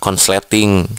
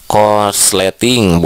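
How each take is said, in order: First: An 'n' sound comes before the 's'. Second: An 'r' sound comes before the 's'. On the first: This is a nonstandard form. The speaker calls it wrong. "bukan konsleting" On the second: This is the standard form. The speaker calls it right. "Korsleting bukan konsleting"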